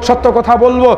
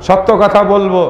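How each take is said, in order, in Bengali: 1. বাক্যটি দ্রুত বলা হয়েছে। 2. বাক্যটি ধীরে বলা হয়েছে। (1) "কথাগুলো যে বললাম দ্রুত হয়ে গেছে" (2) "আবার আস্তে আস্তে দ্বিতীয়বার রিপিট করব"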